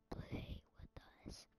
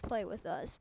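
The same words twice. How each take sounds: First: It is said in a whisper. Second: It is said in a normal voice.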